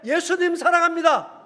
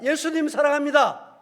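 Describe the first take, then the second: First: It is said more loudly. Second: It is said at normal loudness.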